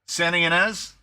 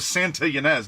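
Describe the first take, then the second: First: The T in Santa is dropped. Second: The T in Santa is clearly pronounced. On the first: This is how a Californian says it. The speaker calls it right. "We don't do the T" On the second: This is how an outsider might expect it. The speaker calls it wrong. "Like you'd think I'd go"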